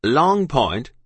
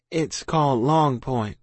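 First: Loud, disbelieving outburst; officer shouting. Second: Slow, careful answer; name the place slowly, making it up; evasive child. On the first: Officer to lying child, incredulous shout. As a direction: fling it back as a loud question. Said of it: "the officer shouted". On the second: Child lying to officer, careful and slow. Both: A narrator's reading.

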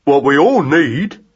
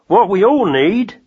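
First: Slow mouse echo of Jim; Magnus echoing. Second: Lightly voiced rat-catcher, higher and unhurried; Jim's voice. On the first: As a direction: repeat it slowly, copying. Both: A narrator's reading. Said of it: "said Magnus".

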